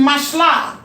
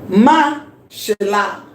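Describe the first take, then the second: First: The syllables run together with no break. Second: There is a short break after the first syllable. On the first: The word has no meteg. "assuming there is no meteg here, it will be mashla. This will be silent" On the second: The word is marked with a meteg. "We are taking a pause here because of what? The meteg"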